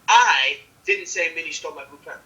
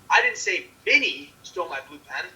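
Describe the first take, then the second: First: The stress is on the word I. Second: The stress is on the word Minnie. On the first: Someone else said it. "If I put it on I, the first word" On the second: Someone else stole the pen. "That someone else stole the blue pen"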